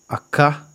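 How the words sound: It has an American-sounding pronunciation. The speaker calls it wrong. "Es como si yo fuera americano y estuviera tratando de decir acá en español"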